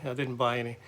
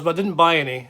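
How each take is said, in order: First: Quiet rueful echo; soft aside. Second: Louder, stress on buy; proud restraint, loudly stated; emphatic denial. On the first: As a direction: mutter it again to yourself. Repeated softly as aside. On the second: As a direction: insist you bought nothing. Guitar shop temptation, denial. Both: Real, not acted.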